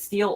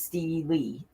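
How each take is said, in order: First: The word is said as one syllable. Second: The word is said as two syllables. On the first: "It's got it as Steel or Steely" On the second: "It's got it as Steel or Steely"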